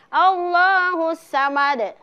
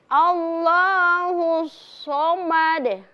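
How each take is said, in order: First: The s sound is thin and light. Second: The s sound is thick and heavy. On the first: The speaker calls it wrong. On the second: The speaker calls it right.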